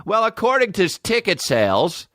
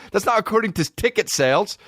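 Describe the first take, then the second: First: Lightly voiced prim news reporter, higher; mocking the reporter. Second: Said in the usual way. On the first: Comedian mimicking the TV reporter, mock prim. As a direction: mimic her smug on-air tone. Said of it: "They're acting like they did".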